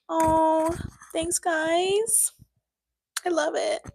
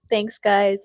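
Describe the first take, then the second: First: High, sing-song thanks; bright mock-gushing thank you; high squeal of thanks. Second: Said in the usual way. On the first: Real, not acted.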